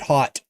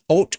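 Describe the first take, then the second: First: The word is said like the English 'hot'. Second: The word is said without the 'hot' vowel. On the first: "I always pronounced it hot" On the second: "Is that how you pronounce that?"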